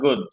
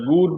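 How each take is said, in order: First: The vowel is a short oo sound. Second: The vowel is a long oo sound. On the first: The speaker calls it right. "এটা গেল ও" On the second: The speaker calls it wrong. "তাহলে আমরা গুড বলবো না"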